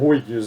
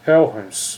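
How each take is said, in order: First: The name is read as it is spelled. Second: The name sounds close to Helhens. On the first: It lets listeners recognize who is meant. "Eu falo Huygens aí porque para saber que é o Huygens" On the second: It is closer to the original pronunciation. "seria aproximadamente Helhens"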